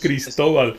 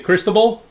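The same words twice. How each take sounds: First: The name is said with Spanish pronunciation. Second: The name is said with American English pronunciation. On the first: The speaker calls it right. "I like Cristobal" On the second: The speaker calls it wrong. "what do they say?"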